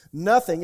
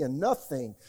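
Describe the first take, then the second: First: Nothing shouted out loud and falling; loud stressed "nothing"; punched nothing. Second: Said in the usual way. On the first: Shown as a demonstration. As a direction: hit "nothing" hard, much louder. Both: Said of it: "everybody say nothing".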